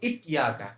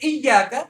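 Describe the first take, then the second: First: The whole tongue presses, giving a stop-like sound. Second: Only the tongue's middle touches, giving a glide. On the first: The speaker calls it wrong. "अगर पूरी जुबान लगाएंगे इत्या का, जो कि गलत है" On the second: The speaker calls it right. "सही सही क्या है"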